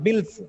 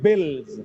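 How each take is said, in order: First: The word ends with a hissing s sound. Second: The word ends with a buzzing z sound. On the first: The speaker calls it wrong. "not bills" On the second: The speaker calls it right. "It should be bills"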